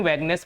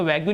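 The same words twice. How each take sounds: First: "वैगनेस" with a hard g straight into "ness"; correct vagueness pronunciation. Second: "वैग्यू" read as two syllables, vag-yoo; mispronounced vague. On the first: Teacher showing students the reading, "वैगनेस" as vaig-ness. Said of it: "वैगनेस पढ़ेंगे इसको". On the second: Teacher showing students the misreading, "वैग्यू" ending in yoo. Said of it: "इसको वैग्यू नहीं पढ़ेंगे". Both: Shown as a demonstration.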